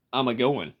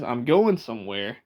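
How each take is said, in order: First: "a-going" with an extra "uh" before going; lower-pitched country "a-going", the "a" attached; Appalachian a-going. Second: Said in the usual way. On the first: Shown as a demonstration. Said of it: "That's how they say it". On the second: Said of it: "when someone says".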